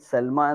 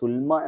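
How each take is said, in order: First: The first vowel is an 'a' sound. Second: The first vowel is a 'u' sound. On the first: This is the common way people say it. The speaker calls it wrong. "എന്നാണ് പറയാറുള്ളത് എല്ലാവരും" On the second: This is the way it should be read. The speaker calls it right. "എന്നാണ് വായിക്കേണ്ടത്"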